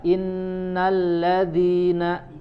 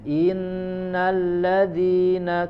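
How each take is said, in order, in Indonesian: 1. Vokal pertama pendek sebelum huruf n. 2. Vokal pertama dipanjangkan lebih lama. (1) "inna itu harus langsung ditekan ke huruf nun" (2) "nah ini isba namanya, melebihkan kadar harokat"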